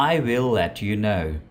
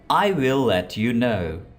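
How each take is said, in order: No difference in how they are said.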